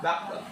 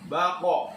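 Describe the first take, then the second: First: The final consonant is cut off without any echo. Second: The final consonant is released with a bouncing echo. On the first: The speaker calls it wrong. "bukan bak" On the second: The speaker calls it right. "kalau kol-kolah harus dipantulkan"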